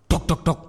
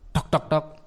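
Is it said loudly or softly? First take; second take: loudly; softly. First: The knocking sounds are said loudly. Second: The knocking sounds are said softly.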